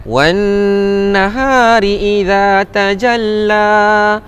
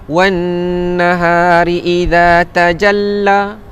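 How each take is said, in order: No difference in how they are said.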